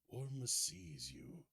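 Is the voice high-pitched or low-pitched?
low-pitched. It is said in a lower, older voice.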